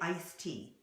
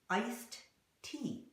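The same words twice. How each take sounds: First: The D and T merge into one sound. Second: The D and T are pronounced separately. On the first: The speaker calls it right. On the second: The speaker calls it wrong.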